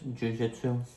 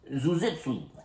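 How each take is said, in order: First: The name is pronounced in the standard way. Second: The name is pronounced in a deliberately garbled way. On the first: The speaker calls it right. "I corrected her, I said" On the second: The speaker calls it wrong. "That's what my grandma would do. She had a field day with pronouncing it wrong"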